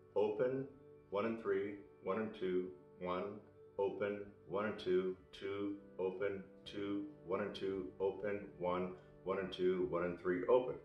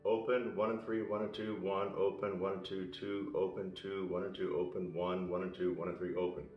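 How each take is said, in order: First: It is spoken at a slower pace. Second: It is spoken at a quicker pace.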